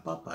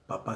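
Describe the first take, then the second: First: "papa" stressed on the first syllable. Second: Said in the usual way. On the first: Shown as a demonstration. Teacher naming the tuber, "papa" stressed on the first syllable. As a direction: hit the first PA of "papa", second one light. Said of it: "a la papa, al tubérculo". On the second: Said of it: "papá sin acento".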